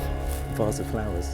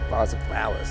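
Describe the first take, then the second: First: It is said in his own normal voice. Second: It is said in Mister Miggs's voice.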